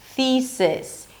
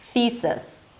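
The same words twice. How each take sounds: First: The second vowel is a clear short I. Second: The second vowel is reduced to a schwa. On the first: "a relaxed I as in sit" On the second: "drop the second syllable into a schwa"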